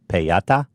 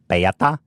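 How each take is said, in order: No difference in how they are said.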